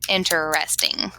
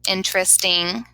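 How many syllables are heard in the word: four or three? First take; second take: four; three. First: The word is said with four syllables. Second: The word is said with three syllables. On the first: "the correct pronunciation would be interesting, which is four" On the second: "in our everyday speech, it sounds like it has three"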